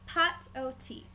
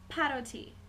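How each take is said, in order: First: The phrase is said slowly, in separate parts. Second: The phrase is said quickly, run together.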